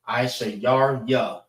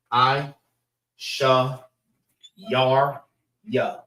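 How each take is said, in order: First: The name is said smoothly as one word. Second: Each syllable is said separately with pauses.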